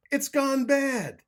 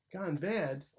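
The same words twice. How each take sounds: First: High, very loud, slowed wail on gone bad; panicked slow shout. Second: Said in the usual way. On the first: A narrator's reading. Fleeing fox wails high and loud that the soup went bad. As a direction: stretch the alarm out.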